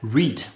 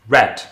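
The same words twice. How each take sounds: First: It is said with the present-tense vowel. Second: It is said with the past-tense vowel. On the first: The action happens now. "in the present tense, I would read it as read" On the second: The action happened before. "if I'm in the past tense... I pronounce it read"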